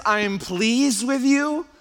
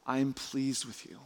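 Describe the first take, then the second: First: High, slow, rising disbelief; incredulous quoting. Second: Hushed approval. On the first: Preacher questions God's early approval, loud incredulous quoting. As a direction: quote it loudly as if astonished. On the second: God to Jesus before any achievement, hushed approval. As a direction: say it quietly, letting it land. God's words after the loud list. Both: Acted.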